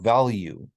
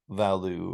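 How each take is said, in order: First: A y-glide comes before the final vowel. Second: No y-glide comes before the final vowel. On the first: The speaker calls it right. "in unstressed syllables, we actually do that" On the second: The speaker calls it wrong. "people don't say val value"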